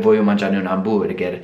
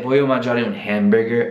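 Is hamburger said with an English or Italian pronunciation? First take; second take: Italian; English. First: Hamburger is said with an Italian-style pronunciation. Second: Hamburger is said with an English-style pronunciation. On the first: "oppure la pronuncia italiana" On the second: "vanno pronunciate con la pronuncia straniera"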